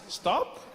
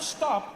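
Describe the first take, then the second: First: It is said as a gentle suggestion. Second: It is said as a firm command.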